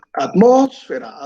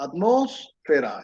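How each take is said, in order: First: "Atmósfera" with the first syllable "at" hit high and loud; stress on first syllable. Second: "atmósfera" said slowly and softer, every syllable separate; slow spelled-out word. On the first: ("Atmósfera" con acento marcado en la primera sílaba "at", más aguda y fuerte) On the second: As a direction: drag out each syllable of "atmósfera" softly. ("atmósfera" lenta y más suave, sílaba por sílaba) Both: Shown as a demonstration. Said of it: "Es una palabra que esdrújula".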